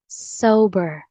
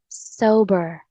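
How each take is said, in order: Both takes have the same delivery.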